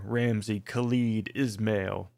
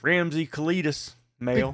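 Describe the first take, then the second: First: The name is said at a normal, careful pace. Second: The name is said quickly, running words together.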